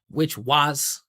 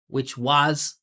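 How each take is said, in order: First: The word was is long, loud and pitched up. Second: The same.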